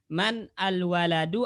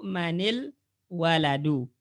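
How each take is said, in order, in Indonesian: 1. Kata-katanya diucapkan terpisah, tanpa disambung. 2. Kata-katanya disambung dengan tambahan vokal i. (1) "boleh dipisah" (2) "boleh sambung"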